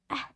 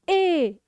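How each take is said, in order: First: The vowel is short, like the letter sound. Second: The vowel is long, like the letter name. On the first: "the sounds of the letters are the short vowel sound" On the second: "the long vowel sound are the letter itself"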